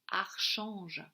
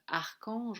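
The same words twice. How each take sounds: First: The ch is said as a sh sound. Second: The ch is said as a k sound. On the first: "On pourrait aussi dire archange, hein, donc l'arche de l'ange" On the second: "on peut le prononcer que"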